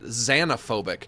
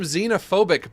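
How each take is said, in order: First: The first syllable sounds like 'zan'. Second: The first syllable sounds like 'zen'.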